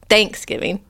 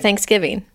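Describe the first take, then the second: First: The stress falls on the 'thanks' part. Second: The stress falls on the 'giving' part. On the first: "You say Thanksgiving" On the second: "We say giving"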